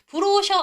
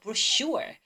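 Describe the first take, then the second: First: The stress is on the first syllable. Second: The stress is on the second syllable. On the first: The speaker calls it wrong. "브로셔 아니고" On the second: The speaker calls it right. "슈에다 강세"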